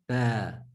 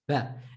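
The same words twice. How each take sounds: First: The vowel is drawn out long. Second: The vowel is said short. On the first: The speaker calls it wrong. "and not" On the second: The speaker calls it right. "try to read it short"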